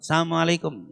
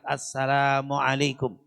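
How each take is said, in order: First: The greeting is said too fast and slurred. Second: The greeting is said clearly and deliberately. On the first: The greeting may sound like wishing death. The speaker calls it wrong. "salam kita terlalu cepat" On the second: The greeting sincerely wishes peace. The speaker calls it right. "dia tegaskan dengan kalimat"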